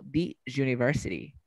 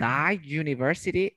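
First: "the university" with THE said dee. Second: "The university" with THE said duh. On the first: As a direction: offer "the university" as dee zhoo-niversity. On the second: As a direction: offer "The university" as duh zhoo-niversity. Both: Shown as a demonstration. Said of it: "¿cómo digo?".

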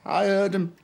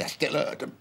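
First: Said in the usual way. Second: Dropped much softer, nearly to himself; soft, hurt murmur; quiet. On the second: Real, not acted. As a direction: let it sink to a hush. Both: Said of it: "Even when they said it quietly".

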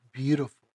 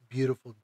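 No difference in how they are said.

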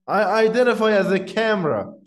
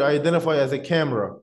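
First: "I identify as a camera" pitched higher, insistent; emphatic repeat. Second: Said in the usual way. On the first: Retold or imitated. Man retelling a store clip's punchline, "I identify as a camera" said higher and emphatic.

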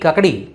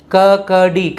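First: Said in the usual way. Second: Slow kakdi, each syllable separated. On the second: Shown as a demonstration. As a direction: sound out kakdi for learners. Teacher sounds out new word.

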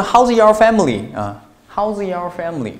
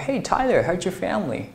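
First: High, loud "How's your", words kept apart; learner's unlinked reading. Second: High, casual greeting, "how's your" blended into one; teacher's linked reading. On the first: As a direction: mimic a learner saying "How's your" without linking. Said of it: "你是不是会读成". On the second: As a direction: greet a friend, "how's your" run together with a j-like sound. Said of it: "我是怎么读啊". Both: Shown as a demonstration.

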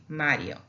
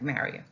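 First: Mario as "MAH-dyo" with a tapped r; Spanish single R. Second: Mario with an English r, "MARE-ee-oh"; English pronunciation. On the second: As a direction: say Mario lower, English-style with an untapped r. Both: Shown as a demonstration. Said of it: "like Mario".

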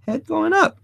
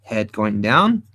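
First: Head going up said much higher; rising head. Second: Head going down said lower and slow; falling head. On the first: Teacher showing the pose, voice shooting up high. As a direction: lift the voice up high as the head goes up. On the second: Teacher showing the pose, voice dropping low and slow. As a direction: let the voice sink slowly with the head. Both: Shown as a demonstration. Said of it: "Now watch this".

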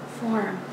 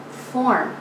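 First: "form" as a soft echo; fading echo. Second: Said in the usual way. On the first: A narrator's reading. Poet echoes the muse's surfacing, "form" hushed. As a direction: let "form" drop away very quietly.

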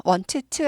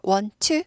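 First: "want to" as "won-teu-tu", t sounded twice; over-articulated "want to" with an extra vowel; wrong doubled t. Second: "want to" as "won-tu", a single t; "want to" joined smoothly with one t; linked "want to". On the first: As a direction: separate both t's in "want to". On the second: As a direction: merge the t's in "want to". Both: Shown as a demonstration. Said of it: "want to 아니고 want to".

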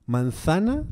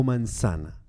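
First: "Manzana" with a th sound for the z; lisped Castilian th in "Manzana". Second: "manzana" with an s sound for the z; soft s in "manzana", no th; Latin American seseo. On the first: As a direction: say "Manzana" the peninsular way, z as th. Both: Shown as a demonstration. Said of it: "cómo te gusta más".

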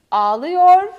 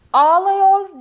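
First: "ağlıyor" said loud with a narrow ı; correct pronunciation. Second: "Ağlıyor" as "ağlayor", slow and loud; wrong pronunciation. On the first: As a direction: say "ağlıyor" the right way. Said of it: "Ağlıyor değil, ağlıyor". ("ağlıyor" doğru telaffuz, dar ı ile) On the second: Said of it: "Ağlıyor değil". ("Ağlıyor" yanlış, "ağlayor" diye yavaş ve yüksek) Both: Shown as a demonstration.

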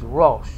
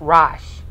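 First: "Rosh" as rohsh, low and rounded; Hebrew O sound. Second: "Rosh" as rahsh, with an open ah, loud; rejected A sound. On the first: Teacher gives the actual word for head, "Rosh" as rohsh. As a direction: say "Rosh" with a long oh. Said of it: "The actual word for head". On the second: Teacher shows the wrong way, "Rosh" as a loud rahsh. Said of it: "Not Rosh". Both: Shown as a demonstration.

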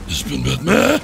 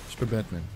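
First: Loud mock-hero cry; Batman. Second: Low, soft hero voice; Batman. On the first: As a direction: shout the hero boast, cracking into laughter. (lauter gespielter Heldenruf mit Lachen) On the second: Acted. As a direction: drop deep for a cool mock-superhero aside. (tiefe, leise Superheldenstimme)

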